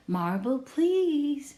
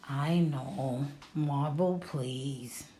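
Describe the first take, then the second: First: Higher and louder, bright request; mom's voice. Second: Sergio's voice, a hint of a smile. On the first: Mom asking Sergio for a marble, high and louder. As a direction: mom prompting, lifting the pitch. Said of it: "said Mom". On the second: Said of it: "said Sergio, smiling just a little". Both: A narrator's reading.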